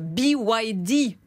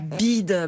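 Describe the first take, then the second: First: The name is said letter by letter. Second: The name is said as one word, like bid. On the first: The speaker calls it right. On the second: The speaker calls it wrong. "Bid ? Mais non, pas BYD"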